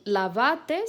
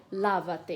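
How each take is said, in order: First: LAVATE as la-va-TE, final syllable stressed; stress on last syllable. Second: LAVA-TE as LA-va-te, first syllable stressed. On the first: Teacher showing students the vos imperative, final-syllable stress on "lavate". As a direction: punch the end of "lavate", on TE. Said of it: "O vos sempre tem a última sílaba tônica". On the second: Teacher showing students the tu imperative, first-syllable stress on "lava-te". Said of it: "O imperativo tu de lavate seria". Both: Shown as a demonstration.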